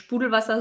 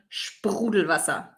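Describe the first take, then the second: First: The R is not made in the throat. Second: The R is made in the throat. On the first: The speaker calls it wrong. "Nicht Sprudelwasser" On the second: The speaker calls it right. "Hier das R kommt aus der Kehle"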